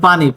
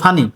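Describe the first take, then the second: First: The word begins with a p sound. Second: The word begins with an f sound.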